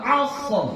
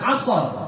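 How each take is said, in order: First: The final r ends the word without a vowel. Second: The final r is followed by a short vowel. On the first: The speaker calls it right. "Jadi kita bacanya wal asr" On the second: The speaker calls it wrong. "Jangan asr. Soalnya enggak berbaris fathah"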